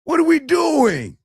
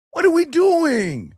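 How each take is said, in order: First: Much higher, louder cry of disbelief; exasperated outburst. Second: Higher still, slow, loud shout; exasperated shout. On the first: Coach scolding the men in chat, high exasperated cry. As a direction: throw your hands up at the men. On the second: Coach shouting at the men in chat, slow exasperated shout. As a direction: hammer the question home slowly. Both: Real, not acted.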